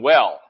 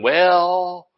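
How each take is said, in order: First: The word is said plainly and complete. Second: The word is drawn out with a hesitant tone. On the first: The speaker is doing fine. "You just stop at well" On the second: Bad news is about to follow. "you can tell by the tone of that something bad's coming behind it"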